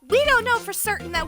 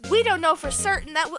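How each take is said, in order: First: It is said in a female character voice. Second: It is said in a male character voice. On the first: The speaker calls it right. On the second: The speaker calls it wrong.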